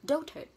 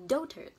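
First: Dotard rising, DO stressed, ending "tut"; teacher modelling Dotard for the class; model pronunciation. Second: Dotard falling, DO stressed, ending "tut"; teacher repeating Dotard to finish; model pronunciation. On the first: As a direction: Dotard said clearly, first beat strong. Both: Shown as a demonstration. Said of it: "âm T A R D đọc là tut".

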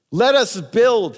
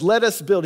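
First: High, loud and slow, each word drawn out; slow drawn-out exhortation on us; exhorting. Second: Higher and a bit louder, quicker urging; brisk exhortation with stress on let; exhorting. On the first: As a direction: urge the crowd, stretching US. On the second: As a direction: press LET forward in a quick urge. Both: Acted. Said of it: "he exhorts".

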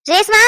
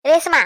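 First: Louder, higher shout of a name; raised-voice call to get her attention. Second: Said in the usual way. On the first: Acted. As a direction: call the name out sharply, rising. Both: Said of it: "காது கிட்ட வந்து கத்திக்கிட்டு".

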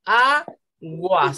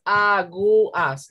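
First: AGUAS as A, pause, GUAS; two-syllable split. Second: AGUAS broken as A - GU - AS; wrong three-syllable split. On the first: Teacher correcting the division for pupils, two-syllable split. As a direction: keep gua together in aguas, after a long high A. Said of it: "Solo hay dos sílabas". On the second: Teacher showing how not to divide it, three-syllable split. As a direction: separate the u from the a in aguas. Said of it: "No es aguas, no". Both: Shown as a demonstration.

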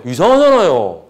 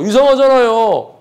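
First: Said in the usual way. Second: 이상하잖아요 said higher and slowly, every syllable leaned on; drawn-out 이상하잖아요 with a raised pitch; emphatic retort. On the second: Shown as a demonstration. Lecturer firing back at the commenter, slow and emphatic. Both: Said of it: "내가 하는 말이에요".

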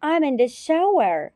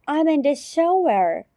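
Both takes have the same delivery.

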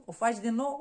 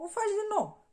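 First: Said in the usual way. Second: Much higher, emphatic repeat. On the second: Shown as a demonstration. Repeating the point to the listener, high emphatic lift. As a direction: jump up high on o faci din nou.

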